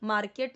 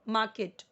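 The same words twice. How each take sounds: First: The r sound is pronounced. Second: The r sound is silent. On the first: The speaker calls it wrong. "मार्केट नहीं" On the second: The speaker calls it right. "आर यहाँ पे silent है दोनों जगह पे"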